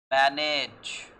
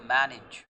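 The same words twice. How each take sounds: First: Manage with a full "ayj" ending; Manage, second vowel a clear e; wrong pronunciation demo. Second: Manage with a short "ij" ending; manage, last vowel a short i; correct pronunciation demo. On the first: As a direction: say Manage loudly as MAN-ayj. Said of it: "But I'm sorry". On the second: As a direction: say manage as MAN-ij. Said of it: "the pronunciation of the word is". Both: Shown as a demonstration.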